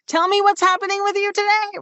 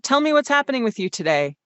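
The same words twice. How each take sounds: First: It is loud in a higher, worried-sounding pitch. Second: It is loud but in a medium, steady pitch.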